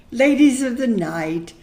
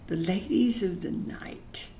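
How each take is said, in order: First: "ladies of the night" spoken openly and louder, stress on "ladies"; now say "ladies of the night" boldly, no hush. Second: Breathy hush on "The ladies of the night"; whispered. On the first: Repeats the phrase, now aloud. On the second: Hushed euphemism after a pause. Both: Real, not acted.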